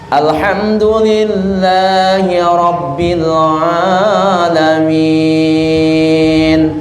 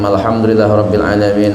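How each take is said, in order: First: The final vowel is stretched out very long. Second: The final vowel is held for a short count. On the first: The person wants to impress people standing behind. The speaker calls it wrong. "berubah menjadi enam harkat" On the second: The prayer is done simply as a duty. The speaker calls it right. "sekadar kewajiban saja sembahyang"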